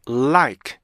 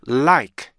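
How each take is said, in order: Both takes have the same delivery.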